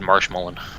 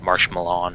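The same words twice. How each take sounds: First: The stress falls in the usual place. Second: The stress falls in an odd place. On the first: The speaker calls it right. "I would have said Marshmallow" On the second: The speaker calls it wrong. "Put the emphasis on a weird spot there"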